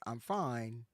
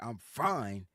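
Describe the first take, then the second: First: It is said in a plain, easygoing tone. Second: It is said in a curt, irritated tone. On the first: The speaker really is fine. "It sounds positive" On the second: The speaker is not fine and wants to be left alone. "you came at it with the tone"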